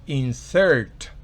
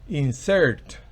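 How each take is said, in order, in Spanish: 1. El acento está en la última sílaba. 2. El acento está en la última sílaba.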